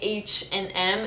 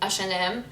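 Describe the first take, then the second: First: The name is said with English pronunciation. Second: The name is said with French pronunciation. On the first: "It's very hard for me to say H and M" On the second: "we say it the French way. I at least say it the French way. I say H and M"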